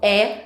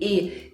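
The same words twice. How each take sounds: First: The vowel is open, with the mouth more open. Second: The vowel is closed, with the mouth less open. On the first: The speaker calls it wrong. "Esse som E não existe em espanhol" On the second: The speaker calls it right. "o som do E em espanhol é sempre fechado"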